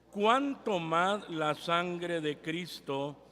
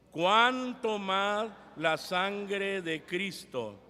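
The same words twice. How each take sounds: Both takes have the same delivery.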